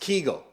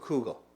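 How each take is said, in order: First: The first vowel is an ee sound. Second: The first vowel is an oo sound.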